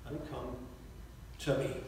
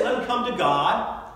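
First: "Let him come to me" dropped low and much softer, the true words; "Let him come to me" almost hushed, low and weighty; quiet contrast. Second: "Let him come to God" lifted higher and louder as the wrong version; "Let him come to God" said high and loud, the version to reject; raised contrast. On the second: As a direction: throw out "Let him come to God" loudly, as what he did not say. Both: Shown as a demonstration. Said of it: "He doesn't say".

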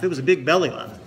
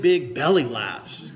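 First: Louder, punching the word big; restating it with emphasis on big; stress on big. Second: Slow, weighty stress on belly; big belly laughs slowed and savored. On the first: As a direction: hit big hard to drive it home. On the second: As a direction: draw out belly laughs with relish. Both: Shown as a demonstration.

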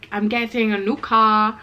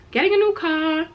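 First: Said in the usual way. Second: High, gleeful sing-out; excited. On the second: Real, not acted. Vlogger announcing her new car to viewers, excited. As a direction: celebrate the news in a raised pitch. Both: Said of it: "which I'm so excited for".

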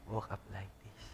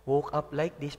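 First: "Woke up like this" dropped low and much softer as a sly aside; mocking aside. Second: Said in the usual way. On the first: Shown as a demonstration. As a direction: mutter "Woke up like this" under your breath, teasing. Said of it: "repeats selfie caption mockingly". (pabulong at nanunuya na "Woke up like this") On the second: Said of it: "quoting a selfie caption".

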